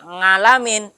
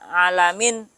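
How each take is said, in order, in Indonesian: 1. Kata ini diawali dengan bunyi ng. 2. Kata ini diawali dengan vokal biasa.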